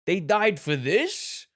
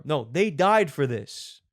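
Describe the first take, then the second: First: Slow, loud rising question, "this" lifted high; incredulous question. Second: Slow, loud, falling "No, they died for this." leaning on "died"; firm affirmation. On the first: Contrasting readings of one sentence, doubtful rising question. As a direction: sound baffled that anyone died for this. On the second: Contrasting readings of one sentence, firm falling statement. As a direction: settle the matter with a proud downward close. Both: Shown as a demonstration. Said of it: "It can mean inflections, two different things".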